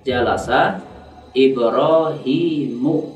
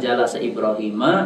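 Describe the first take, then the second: First: The name ends with a u vowel. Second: The name ends with an a vowel. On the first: The speaker calls it right. "dibaca dengan dhammah" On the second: The speaker calls it wrong.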